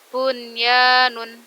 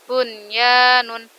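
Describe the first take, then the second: No difference in how they are said.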